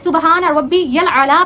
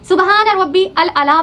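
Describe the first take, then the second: First: Rabbi links into 'yal' before 'a'la'. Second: A separate 'al' is said before 'a'la'. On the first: The speaker calls it right. "पढ़ने की बजाय" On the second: The speaker calls it wrong. "पढ़ते हैं"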